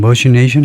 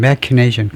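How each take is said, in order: First: The ch is said like sh. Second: The ch is said like k. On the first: The speaker calls it wrong. "머신에서 나온 거라면 그냥 머시네이션 할 수 있을까요?" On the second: The speaker calls it right. "꼭 크 발음이 나올 것 같은데 머시네이션이 아니고 예, 그렇죠"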